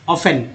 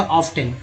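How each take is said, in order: First: ऑफन with no "t", "OFF-en"; correct silent t. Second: ऑफ्टन with the "t" sounded, "OFF-ten"; common t-sounded reading. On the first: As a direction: model ऑफन leaving the t silent. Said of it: "इसको पढ़ा जाएगा दोस्तों". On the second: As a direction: quote ऑफ्टन with an audible t. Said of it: "अक्सर लोग यही पढ़ देते हैं". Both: Shown as a demonstration.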